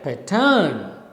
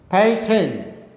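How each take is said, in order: First: The stress is on the second syllable. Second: The stress is on the first syllable. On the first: The speaker calls it wrong. "You can't say pattern, is wrong" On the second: The speaker calls it right. "the first syllable is stressed, second syllable is unstressed"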